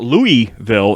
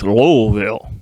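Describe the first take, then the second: First: The middle of the name has an 'ee' sound. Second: The middle of the name has an 'l' sound. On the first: The speaker calls it wrong. "she was very adamant that it's not Louisville" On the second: The speaker calls it right. "it's Lowellville"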